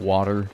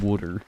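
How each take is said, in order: First: Water is said in a standard accent. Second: Water is said in a Philly accent.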